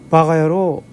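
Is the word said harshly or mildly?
mildly. It is said softly, without force. It does not come across as an insult. "이러면 욕이 되지 않습니다"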